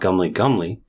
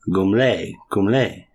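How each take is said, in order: First: The name is said in a plain English accent. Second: The name is said in a French-style accent. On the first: The speaker calls it wrong. "It's not gumly gumly" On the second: The speaker calls it right. "It's actually a French neighborhood in Australia"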